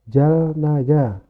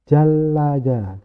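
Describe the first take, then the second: First: The middle consonant is heard as an n sound. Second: The middle consonant is heard as an l sound. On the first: This is how it is written. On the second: This is how it is actually read.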